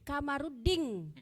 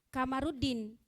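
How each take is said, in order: First: The name ends with an 'ng' sound. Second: The name ends with a plain 'n' sound. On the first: "orang Makassar menyebut namanya Ding" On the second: "Tidak Din"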